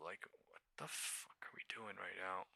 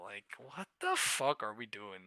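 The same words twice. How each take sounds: First: Soft unvoiced whisper; whispered despair. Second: Said in the usual way. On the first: Real, not acted. Trapped trader whispering in despair. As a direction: whisper it in disbelief.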